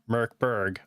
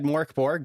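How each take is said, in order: First: Both syllables have an 'er' vowel. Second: Both syllables have an 'or' vowel. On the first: "I believe is the proper way of saying it" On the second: "I've always said Morkborg"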